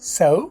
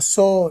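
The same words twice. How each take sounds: First: The final vowel glides with rounded lips. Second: The final vowel is a flat, pure 'o'. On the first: The speaker calls it right. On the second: The speaker calls it wrong.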